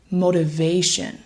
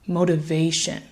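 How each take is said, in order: First: The unstressed syllables are quick and reduced. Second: The unstressed syllables are quick and reduced.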